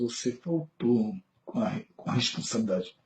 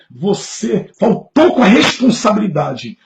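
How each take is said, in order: First: The tone of voice sounds calm and gentle. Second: The tone of voice sounds harsh and accusing. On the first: The criticism comes across as constructive. The speaker calls it right. "É diferente" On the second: The criticism comes across as an attack. The speaker calls it wrong. "só que já errou na parte da tonalidade"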